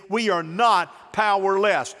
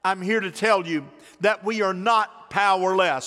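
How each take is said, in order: First: Slow, with "not" struck hard and falling; stress on not. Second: "not" hit hard and falling in "not powerless"; stress on not. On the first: Shown as a demonstration. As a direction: slowly repeat it, landing hard on "not". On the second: Real, not acted. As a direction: lean hard on "not" so it sounds firm. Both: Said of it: "Say that with me".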